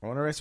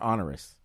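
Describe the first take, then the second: First: "Onerous" starting like "own"; long O in onerous. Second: "onerous" starting like "on"; short O in onerous. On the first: Co-host checking the word with host, "Onerous" with long O. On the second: Co-host offering the other reading, "onerous" with AH. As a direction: say "onerous" with an open AH, AH-ner-us. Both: Shown as a demonstration. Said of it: "Onerous or onerous?".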